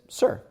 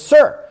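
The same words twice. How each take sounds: First: It is said at a quiet, normal level. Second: It is said very loudly, almost shouted.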